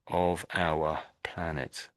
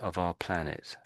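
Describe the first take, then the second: First: Slow, with 'our' pronounced in full. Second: Quick, with 'our' reduced to 'ar'. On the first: "if I was reading it out slowly, I would say of our planet" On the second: "When I read it out quickly, it turns into the sound R"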